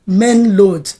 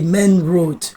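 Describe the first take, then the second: First: The word road begins with an l sound. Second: The word road begins with an r sound. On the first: "where is the load?" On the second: "oh, you mean the main road?"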